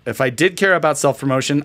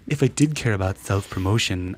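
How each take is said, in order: First: It is read in the speaker's ordinary plain voice. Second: It is read in a put-on character voice. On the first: The speaker calls it wrong. "I forgot to read that in the proper voice" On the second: The speaker calls it right. "in the proper voice"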